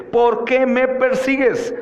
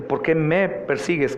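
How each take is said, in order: First: High, slow, forceful "por qué"; stress on POR QUÉ. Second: Mild weight on the word "me"; stress on ME. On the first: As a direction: hit "qué" hard in the question. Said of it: "Debemos también notar el por qué". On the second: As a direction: lean lightly on "me". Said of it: "no tenemos que solo enfatizar en en me". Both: Shown as a demonstration.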